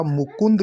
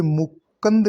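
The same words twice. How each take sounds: First: मुकुंद as "mu-kund"; correct pronunciation. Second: मुकुंद as "mu-kand"; a after k in मुकुंद; wrong pronunciation. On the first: Teacher correcting the word, मुकुंद as "mu-kund". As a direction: sound u after k in मुकुंद. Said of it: "लिखा जाएगा". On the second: Teacher repeating the error, मुकुंद as "mu-kand". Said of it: "नहीं होता". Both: Shown as a demonstration.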